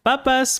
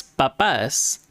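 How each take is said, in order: First: "Papas" as PA-pas, first syllable high; stress on first A. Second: "papas" as pa-PAS, last syllable stressed and falling; stress on second A. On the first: Teacher showing the accent difference, "Papas" stressed on its first syllable. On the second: Teacher showing the accent difference, "papas" stressed on its second syllable. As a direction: lean into the final A of "papas". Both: Shown as a demonstration. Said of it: "you can tell the accent difference there".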